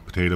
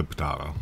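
First: Potato said "po-TAY-to"; long A pronunciation. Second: Potato said "po-TAH-to"; broad A pronunciation. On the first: Showing either way is fine, potato as "po-TAY-to". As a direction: say potato with an "ay" in the middle. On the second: Showing either way is fine, potato as "po-TAH-to". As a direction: say potato with an "ah" in the middle. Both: Shown as a demonstration. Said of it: "depending on how you wanna pronounce it".

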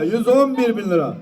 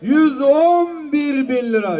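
First: Said in the usual way. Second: Slow drawn-out bid call, slightly higher; auctioneer. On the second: Acted. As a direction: stretch the price out for the crowd.

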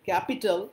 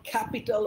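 First: Said in the usual way. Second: ক্যাপিটাল with a puffed, aspirated k, "khapital"; affected pronunciation. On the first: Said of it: "আমার মতন করে উচ্চারণ করব". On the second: Shown as a demonstration. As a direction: show off a foreign-style k in ক্যাপিটাল. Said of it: "ওরম করে কায়দা মেরে বলার দরকার নেই". (কায়দা মেরে "ক্যাপিটাল", খ-এর মতো)

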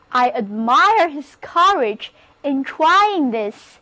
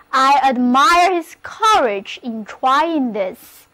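First: The sentence read slowly, every word clear; slow model reading. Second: Said in the usual way. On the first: Shown as a demonstration. Teacher reading the example sentence slowly for her class. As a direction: read it slow so students can follow. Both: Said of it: "例如这个句子".

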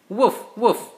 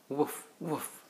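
First: High, loud playful woof woof; puppy bark. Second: Soft, drowsy little woof woof; a tired puppy settling to sleep; sleepy puppy bark. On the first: Dad reading to his kids, barking loudly as the puppy. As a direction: bark like an eager little puppy. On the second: Dad reading a bedtime book, barking softly as the sleepy puppy. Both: Acted.

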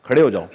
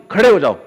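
First: Said in the usual way. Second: Louder, insistent command to get up; urging yourself up. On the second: Retold or imitated. The active self orders the body to get up, loudly. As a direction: push yourself out of bed, loud. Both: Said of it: "तो फिर आता action".

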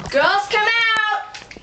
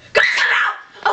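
First: High, drawn-out summons; calling out. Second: Harsh, drawn-out roar without clear pitch; scary yell. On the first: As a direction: call them out from backstage in a high singsong. Host calls contestants from backstage. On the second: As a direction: roar it at them to scare them out. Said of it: "She scares me". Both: Acted.

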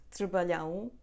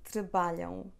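First: "trabalhão" with the stress thrown onto the last syllable, lhão; wrong final stress. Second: "Trabalham" stressed on the middle syllable BA, light nasal ending; correct stress. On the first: Teacher imitating students' common error, stress on final ão of "trabalhão". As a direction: lean on the nasal ão at the end of "trabalhão". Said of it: "Do not stress the last syllable". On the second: Teacher correcting students' error, "Trabalham" stressed on BA. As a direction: punch BA in "Trabalham", leave the final ão unstressed. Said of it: "So let's say it again".

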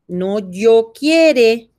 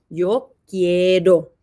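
First: "quiere" said slowly as the mistake; wrong form. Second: "quiero" said slowly with a falling, settled tone; correct form. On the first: Teacher showing a child the wrong verb form, slowly. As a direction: drag out "quiere" to show it's wrong. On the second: Teacher correcting a child's grammar, slow and clear. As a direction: give "quiero" slowly as the right answer. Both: Shown as a demonstration.

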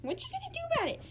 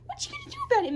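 First: A higher, playful whispered dare; mock whisper taunt. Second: Very high, playful squeal of a dare; squeaky mock taunt. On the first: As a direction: hiss the dare softly at the kitten. Taunting kitten, whispered take. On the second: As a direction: squeak the challenge at the kitten. Taunting kitten, squeaky take. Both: Real, not acted.

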